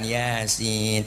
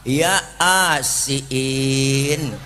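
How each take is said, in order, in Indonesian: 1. Kata itu diucapkan dengan lancar sebagai satu kesatuan. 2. Kata itu dipisah menjadi dua bagian yang terpisah. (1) "dateng yang bego ngajiin baca Quran" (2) "gua dibaca ya a, ya asin"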